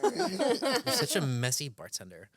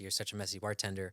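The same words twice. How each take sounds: First: It is said in a put-on Valley girl voice. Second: It is said in the speaker's normal voice.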